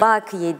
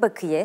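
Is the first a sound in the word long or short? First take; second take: long; short. First: The first a sound is held long. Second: The first a sound is kept short. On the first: The speaker calls it wrong. "Bakiye değil" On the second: The speaker calls it right. "A sesi kısa olacak"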